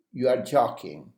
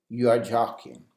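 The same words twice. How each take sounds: First: "are" leaned on, falling tune; stress on are. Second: "you" stressed, falling tune. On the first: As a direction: insist with the word "are". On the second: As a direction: put the weight on "you". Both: Shown as a demonstration. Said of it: "You can also use".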